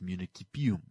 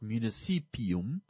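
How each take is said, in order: First: The c is pronounced as a k sound. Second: The c is pronounced as an s sound. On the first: The speaker calls it right. "it's municipium" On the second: The speaker calls it wrong. "because the Romans did not have a s or an s pronunciation for their c's, so it is not municipium"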